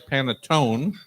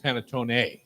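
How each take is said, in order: First: The final vowel is dropped. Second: The final vowel is clearly pronounced. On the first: The speaker calls it wrong. "people don't pronounce the E" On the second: The speaker calls it right. "the Italians pronounce the last vowel"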